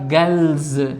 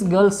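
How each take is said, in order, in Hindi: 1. शब्द का अंत भनभनाती z आवाज़ से होता है। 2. शब्द का अंत फुफकार वाली s आवाज़ से होता है। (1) "एस जेड पढ़ा जाएगा ... सही प्रोनाउंसिएशन बनेगा वो बनेगा गर्ल्स" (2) "गर्ल्स गर्ल्स हम चिल्लाते रहते हैं ... इट्स रॉन्ग"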